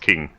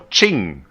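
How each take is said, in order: First: The name begins with a 'k' sound. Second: The name begins with a 'ch' sound. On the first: "for every Western person, it's King" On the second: "as you should pronounce it"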